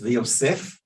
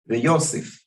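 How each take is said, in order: First: The stress falls on the final syllable. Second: The stress falls on the next-to-last syllable. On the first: "is Milra" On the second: "both of these verses of Proverbs are Mil'el"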